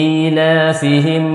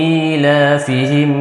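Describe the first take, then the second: No difference in how they are said.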